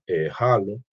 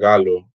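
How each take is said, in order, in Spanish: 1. La palabra empieza con un sonido de h aspirada. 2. La palabra empieza con un sonido de g dura.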